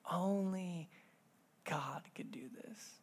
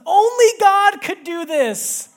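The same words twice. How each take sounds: First: Whispered softly, letting it sink in; hushed whisper. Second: Very high, loud and slow, full of wonder; awed daughter. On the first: Real, not acted. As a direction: breathe the words like a secret. Repeats daughter's line hushed. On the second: Retold or imitated. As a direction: echo the little girl's amazed cry. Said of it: "out of her mouth just comes".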